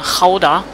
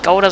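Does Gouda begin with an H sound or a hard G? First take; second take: H sound; hard G. First: The word begins with an H-like sound. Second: The word begins with a hard G sound. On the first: The speaker calls it right. "Das G wird immer H ausgesprochen" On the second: The speaker calls it wrong. "eigentlich heißt es nicht Gouda"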